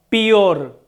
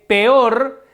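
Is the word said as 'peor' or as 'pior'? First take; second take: pior; peor. First: The word is said with an 'i' vowel, 'pior'. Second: The word is said with a clear 'e' vowel. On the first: The speaker calls it wrong. "flagrante infracción a la norma lingüística" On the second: The speaker calls it right. "En vez de peor"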